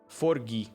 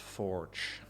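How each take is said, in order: First: The word ends with an added vowel sound. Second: The word ends on a soft consonant sound. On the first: "I would like to propose pronouncing this as Forgi" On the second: "instead of forge"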